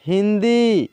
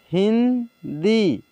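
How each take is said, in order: First: Said in the usual way. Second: Hindi stretched out very slowly, sound by sound; slow teacher dictation of Hindi; slow spelled-out reading. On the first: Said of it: "teacher says word normally". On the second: Shown as a demonstration. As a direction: draw out Hindi slowly for the class. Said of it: "teacher reads word slowly".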